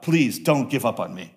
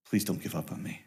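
First: Said in the usual way. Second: Much softer, low, pleading prayer; quiet begging. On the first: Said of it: "here's a prayer that you can take home today". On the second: Retold or imitated. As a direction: plead softly like a man begging God. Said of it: "He is begging".

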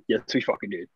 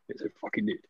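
First: Said in the usual way. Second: Insistent repeat. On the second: Real, not acted.

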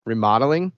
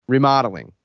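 First: "Remodeling?" with a rising tune; "Remodeling?" lifting at the end, unsure; questioning echo. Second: "Remodeling." with a falling tune; "Remodeling." stated, pitch dropping at the end; statement. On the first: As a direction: repeat "Remodeling?" back as a puzzled question. Caller echoes it as a question. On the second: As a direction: answer the phone with "Remodeling." as a finished statement. Phone greeting, then puzzled echo. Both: Acted.

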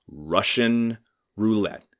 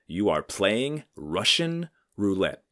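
First: Slow, weighty repeat; stern echo. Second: Slow, grave doctor voice; stern old doctor. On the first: Comedian repeats the old doctor's warning to the audience, slow and heavy. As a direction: let it sink in slowly. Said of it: "he goes". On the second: Old stern doctor warning his young patient, slow and grave. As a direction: deliver the verdict slowly and gravely like an old-school doctor. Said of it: "he looks at me and he goes". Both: Retold or imitated.

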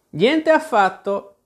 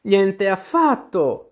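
First: High, slow, drawn-out scornful denial; scornful retort. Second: High, slow, emphatic indignant denial; indignant exclamation. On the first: Tweedledee contradicts Alice, scornful retort. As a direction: throw it back with contempt, slowly. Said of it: "ribatté con disprezzo Tweedledee". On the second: Alice refuses to be snuffed out, indignant. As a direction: exclaim it stretched out, affronted. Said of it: "esclamò Alice indignata". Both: A narrator's reading.

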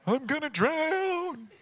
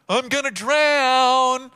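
First: High, soft, drawn-out mock wail; mocking whine. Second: Loud, high, long-drawn whine; mocking wail. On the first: Sleepy Jesus mimicking the disciples, mocking whine. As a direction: stretch it into a small whiny imitation. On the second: Jesus mimicking panicked disciples, loud mocking wail. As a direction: belt out an exaggerated helpless wail.

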